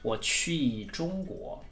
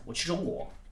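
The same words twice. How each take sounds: First: The phrase is spoken slowly. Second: The phrase is spoken very fast. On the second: "Even faster"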